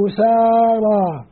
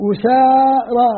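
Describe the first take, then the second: First: أسارى stretched with a long alif after the س; slow recitation. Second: أسارى said slowly with a clear long alif; slow recitation. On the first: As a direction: draw out أسارى, holding the long aa. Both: Shown as a demonstration. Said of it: "بضم الهمزة والألف بعد السين".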